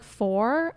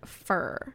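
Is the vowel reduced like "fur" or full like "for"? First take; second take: for; fur. First: The vowel is full, sounding like for. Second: The vowel is reduced, sounding like fur.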